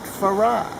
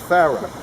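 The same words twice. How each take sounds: First: The name is said in a French way. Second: The name is said in an English way. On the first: This is the form one would expect from its French origin. The speaker calls it wrong. "not Farah, which you would think they would have called it, French and all that" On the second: This is how the family says its own name. The speaker calls it right. "they now call themselves Farah"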